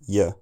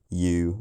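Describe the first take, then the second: First: The word is cut to a weak, short form. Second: The word has a full, stressed vowel. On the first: "an unstressed form" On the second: "a stressed form"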